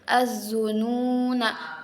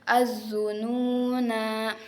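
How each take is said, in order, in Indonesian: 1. Vokal akhir dibaca pendek. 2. Vokal akhir dibaca panjang. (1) "Kalau wasol itu na-nya dibaca pendek" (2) "Kalau wakof itu na-nya dibaca panjang"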